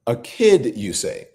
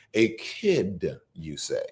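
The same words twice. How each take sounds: First: Sarcastic echo. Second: Muttered, much softer and lower sarcasm; quiet mock echo. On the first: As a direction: throw his words back at him. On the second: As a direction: repeat his words under your breath. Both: Real, not acted.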